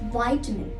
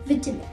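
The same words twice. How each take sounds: First: It is said with an American accent. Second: It is said with a British accent. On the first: "in the U S accent" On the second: "In the U K accent"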